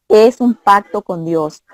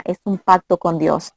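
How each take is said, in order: First: "Es un pacto con Dios" said slower, each word weighed; slow down and press "Es un pacto con Dios"; slow emphatic restatement. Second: Said in the usual way. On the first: Shown as a demonstration. Telling Dayana marriage is a covenant, slow and emphatic.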